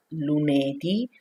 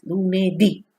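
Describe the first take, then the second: First: Lunedì with the final ì left weak and unstressed; wrong stress. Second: Lunedì with a strong, stressed final ì, a bit louder; correct stress. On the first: Teacher showing beginners the wrong way, final ì kept weak. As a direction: say lunedì without leaning on the last ì. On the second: Teacher showing beginners the right way, strong final ì. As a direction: land hard on the last ì of lunedì. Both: Shown as a demonstration. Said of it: "With accent, is strong sound".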